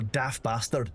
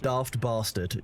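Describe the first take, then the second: First: It is said in a northern English accent. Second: It is said in a standard British accent. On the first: "if you're from up north" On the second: "if you're British"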